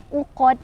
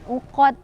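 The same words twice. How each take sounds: Both takes have the same delivery.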